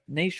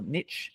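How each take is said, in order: First: It is said in a non-American pronunciation. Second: It is said in the American pronunciation.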